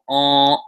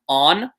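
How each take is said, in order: First: The final N sound is dropped, vowel nasalized. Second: The final N sound is clearly pronounced. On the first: "you kind of don't pronounce that N" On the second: "It's kind of like saying the word on"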